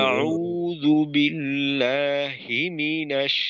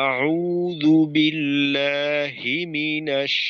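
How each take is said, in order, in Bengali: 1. ধাক্কাটা পড়ে 'hi' অক্ষরে। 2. ধাক্কাটা পড়ে 'hi' অক্ষরে।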